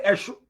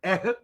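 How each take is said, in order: First: "Eshu" with a sh in the middle; Nsukka pronunciation. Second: "ehu" with an h in the middle; Udi pronunciation. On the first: Teacher showing how Nsukka people say it, "Eshu" with sh. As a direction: say "Eshu" the Nsukka way, sh rather than h. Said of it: "Nsukka will say". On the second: Teacher showing how Udi people say it, "ehu" with an h. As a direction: say "ehu" the Udi way, h rather than sh. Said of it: "Udi will say". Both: Shown as a demonstration.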